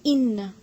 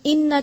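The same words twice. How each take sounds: First: इन्ना with a thin, narrow i; thin kasra. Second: इन्ना with the kasra drifting toward a fatha; इन्ना with an in-between vowel, not a thin i; wrong kasra. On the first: Teacher shows the correct reading with a thin kasra. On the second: Teacher demonstrates the mistake, vowel between fatha and kasra. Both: Shown as a demonstration. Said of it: "इन्ना ऐसे नहीं पढ़ना".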